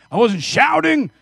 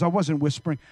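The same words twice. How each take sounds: First: Raised demo. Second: Said in the usual way. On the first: Shown as a demonstration.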